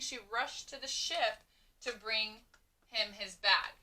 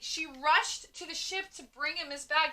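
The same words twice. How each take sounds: First: It is said calmly, as a plain statement. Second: It is said with lots of energy and force. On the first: It simply tells us something. "We could have a period" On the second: It is exclaimed with excitement. "with a whole lot of oomph"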